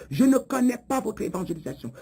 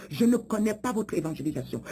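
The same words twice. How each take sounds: The two takes are said the same way.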